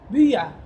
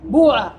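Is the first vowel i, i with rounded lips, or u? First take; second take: rounded i; u. First: The i vowel is said with rounded lips. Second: The first vowel is a u sound. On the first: "أنت تكسر وتضم الشفتين" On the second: "فتقلب أو يقلب حرف العلة واوا لمناسبة الضمة"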